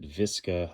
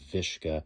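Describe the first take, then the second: First: The middle consonant is a plain s sound. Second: The middle consonant is an sh sound. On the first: "some would pronounce it Visca" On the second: "others have pronounced it Vishka"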